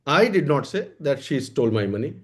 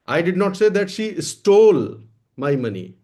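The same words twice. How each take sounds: First: The word "I" carries the main stress. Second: The word "stole" carries the main stress. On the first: Someone else said it, not me. "इसका क्या मतलब हुआ? कि हमने नहीं कहा है।" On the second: She took or borrowed it, not stole it. "मैंने ये नहीं कहा कि उसने चुराया है, ले लिया है, मांग लिया है, चुराया नहीं है।"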